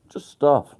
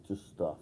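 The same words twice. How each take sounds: First: Stuff said high and loud, falling; louder repeat. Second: Said in the usual way. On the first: Shown as a demonstration.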